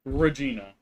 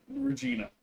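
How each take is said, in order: First: Louder, firm call of Regina. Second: High sing-song pet call. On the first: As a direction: call Regina out sharply, no sing-song. Scolding the cat. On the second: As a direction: coo her name way up high. Calling the cat sweetly. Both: Real, not acted.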